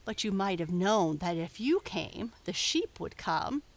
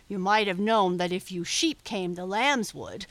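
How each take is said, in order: First: "you" stressed in a retort. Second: "sheep" hit louder as a retort; stress on SHEEP. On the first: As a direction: lean on "you" to throw back the blame. Sheep argues back at bellwether. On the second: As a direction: punch "sheep" to turn the blame round. Bellwether turns the argument back. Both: A narrator's reading.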